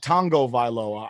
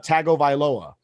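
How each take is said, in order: First: The name is said with an n sound. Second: The name is said without an n sound. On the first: The speaker calls it wrong. "But he pronounces it" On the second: The speaker calls it right. "written as ta, uh"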